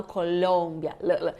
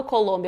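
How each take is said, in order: First: "Colômbia" lower, with the L held and clearly tongued; well-articulated L. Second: "Colômbia" in the everyday way, L passed over quickly; lightly articulated L. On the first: Teacher showing students the Spanish L, firmly articulated L. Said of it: "bem articulado". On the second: Teacher showing what she doesn't say, casual light L. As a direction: say "Colômbia" with an unemphasised L. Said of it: "então eu não falo Colômbia". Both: Shown as a demonstration.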